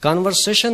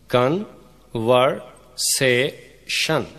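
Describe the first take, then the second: First: Said in the usual way. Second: "कन, वर, से, शन" in four separate beats; syllable by syllable. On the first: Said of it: "चार syllables हैं". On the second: Shown as a demonstration. Teacher counting out four syllables, "कन, वर, से, शन" said separately. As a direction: break it up with pauses: "कन, वर, से, शन". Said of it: "conversation में चार सिलेबल्स हैं".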